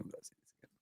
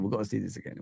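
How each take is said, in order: First: Breathy whisper, almost to yourself. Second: Said in the usual way. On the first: Real, not acted. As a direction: whisper it under your breath. Repeating line, dropping to whisper.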